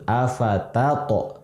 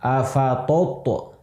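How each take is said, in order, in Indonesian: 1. Bunyi t pertama tipis dan ringan. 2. Bunyi t pertama tebal dan berat. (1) "tapi ta'nya harus tipis" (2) "jangan sampai di ditebalkan ta'nya"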